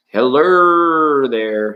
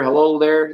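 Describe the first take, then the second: First: Slow, drawn-out, louder serious greeting; mock serious voice. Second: Said in the usual way. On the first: Tarot host greets a chat viewer in a mock serious voice. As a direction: stretch the hello out like a solemn host. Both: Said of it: "serious voice".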